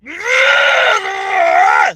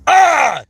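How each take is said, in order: First: The yell is loud and full of energy. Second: The yell is restrained with little energy. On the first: The speaker calls it right. "like you're really going over the top with the the energy" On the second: The speaker calls it wrong. "It's not just ah"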